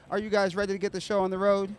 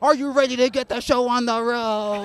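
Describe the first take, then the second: First: It is said in a plain, normal way. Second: It is said with loud, energetic emphasis.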